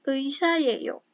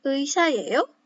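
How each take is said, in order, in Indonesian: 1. Nada turun di akhir. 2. Nada naik di akhir.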